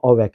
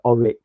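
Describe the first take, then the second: First: The second syllable sounds like 'reck'. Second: The second syllable sounds like 'rick'. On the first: It sounds like the vacuum cleaner brand. The speaker calls it wrong. "not Orec as in vacuum" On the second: It is the name of the computer. The speaker calls it right. "but Oric. I think it was O R I C"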